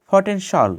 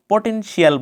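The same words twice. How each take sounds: First: পটেনশাল ending in one syllable "shawl"; correct pronunciation. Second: পটেনশিয়াল with a separate "shi-yal" ending; common mispronunciation. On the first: Teacher shows how it should be, correctly pronounced. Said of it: "এটা হবে". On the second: Teacher quotes the word we usually say, mispronounced. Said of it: "ভুল কিছু উচ্চারণ করে থাকি". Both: Shown as a demonstration.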